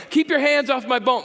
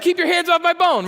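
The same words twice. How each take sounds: First: Higher and louder, defensive snap; guard it like a dog with a bone; mock protective outburst. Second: Much higher and louder, a hammed-up growling shout; mock snarling yell. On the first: Pastor mimicking a defensive listener, mock protective outburst. Objector guarding his sex life. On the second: Pastor voicing a man guarding his bone, hammed-up loud snarl. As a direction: bark it like a dog protecting its bone. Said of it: "Here it comes".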